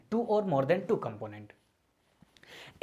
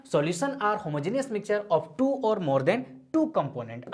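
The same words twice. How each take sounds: First: Two or more than two component drawn out extremely slowly, each word separate; stressed repeat. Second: Definition read out word by word, very slow; slow dictation. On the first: Teacher repeating the key phrase for students to remember, stretched out word by word. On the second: Teacher dictating the definition to students, slow and deliberate. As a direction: spell out the definition slowly for notes. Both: Shown as a demonstration. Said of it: "अब इस बात को थोड़ा समझते हैं".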